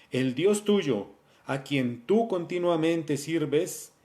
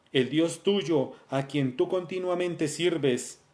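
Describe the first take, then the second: Both takes have the same delivery.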